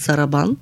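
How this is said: It is said with Russian reduced vowels. "с по-така руски акцент сарабан"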